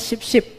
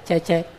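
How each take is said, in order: First: The name is said with 'sh' sounds. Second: The name is said with 'ch' sounds. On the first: The name is read the way Arabic would render it. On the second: The name is read the way it is meant.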